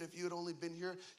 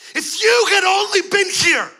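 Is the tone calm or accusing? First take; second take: calm; accusing. First: It is said in a calm, plain tone. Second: It is said in an angry, accusing tone.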